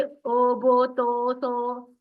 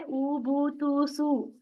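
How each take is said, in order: First: "ओ, बो, तो, सो" said with an open o in place of u; wrong Persian-style o. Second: "ऊ, बू, तू, सू" with a rounded u, not o; correct u sound. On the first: Teacher warns students against the Persian style: "ओ, बो, तो, सो" as o. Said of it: "फारसी के अंदाज में मत पढ़िए". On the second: Teacher gives students the right pesh reading: "बू, तू, सू" as u. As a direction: keep "बू" and "सू" as a pure u. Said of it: "हमें क्या पढ़ना है?". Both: Shown as a demonstration.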